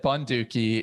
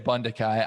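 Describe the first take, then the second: First: The name ends with a 'kee' sound. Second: The name ends with a 'kai' sound. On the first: "the first time I, I read those names, I actually said Bunduki" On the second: "now I'm I'm choosing to say Bundakai"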